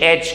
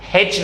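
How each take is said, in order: First: It begins with a vowel sound. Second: It begins with an h sound. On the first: The speaker calls it right. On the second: The speaker calls it wrong. "हेच नहीं"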